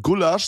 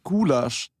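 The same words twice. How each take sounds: First: Said in the usual way. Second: "Gulasch" with a drawn-out u; long vowel in Gulasch. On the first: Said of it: "anstatt Gulasch sag ich Gulasch". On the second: Shown as a demonstration. Co-host showing his own odd Gulasch, long u. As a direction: stretch the first vowel of "Gulasch". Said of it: "du ziehst es so ein bisschen lang".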